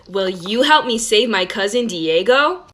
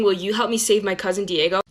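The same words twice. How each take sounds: First: Put-on slow, drawn-out question for little kids; talking to a child. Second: Said in the usual way. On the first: Shown as a demonstration. A cartoon girl asking young viewers for help, slow and drawn out. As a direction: stretch it out slowly like a kids' show host. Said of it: "like you're talking to a child". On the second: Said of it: "like a normal person".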